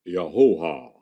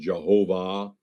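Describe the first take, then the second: First: The name begins with a Y sound. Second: The name begins with a J sound. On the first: "But the Hebrews said Yahovah. Same word as Jehovah" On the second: "they Germanized the pronunciation Jehovah"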